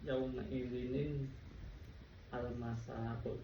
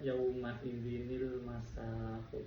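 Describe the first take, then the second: First: The n-sound is followed by a separate al. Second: The n-sound links straight into -il. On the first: This is the underlying form. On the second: This is how it is actually recited. "jadinya dibaca"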